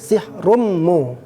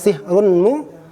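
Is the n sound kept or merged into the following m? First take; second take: merged; kept. First: The n merges into a doubled m sound. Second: The n sound is pronounced before the m. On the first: This is how it is read in recitation. "menjadi sihrummu" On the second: This is the underlying form before assimilation.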